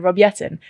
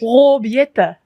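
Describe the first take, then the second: First: The name is pronounced with English sounds. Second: The name is pronounced with Dutch sounds. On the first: The speaker calls it wrong. "we've been saying it wrong this whole time" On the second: The speaker calls it right. "actually, it's"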